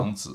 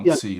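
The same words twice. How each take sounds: First: The name is said with a Mandarin pronunciation. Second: The name is said with an American pronunciation. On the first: "it's the Mandarin pronunciation" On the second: "But that's American pronunciation"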